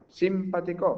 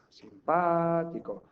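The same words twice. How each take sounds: First: The stress falls on a syllable other than pa. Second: The stress falls on the syllable pa. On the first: The speaker calls it wrong. "Pues no" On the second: The speaker calls it right. "La sílaba tónica es esta"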